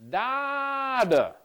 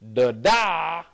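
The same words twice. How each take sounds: First: The stress is on the first syllable. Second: The stress is on the second syllable. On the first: "the first syllable is stronger" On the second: "if the stress is on the second syllable"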